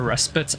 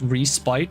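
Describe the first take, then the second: First: The second syllable sounds like 'spit'. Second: The second syllable sounds like 'spite'. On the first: "some prefer respite as in spitting" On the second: "always call it respite, as it's spiteful"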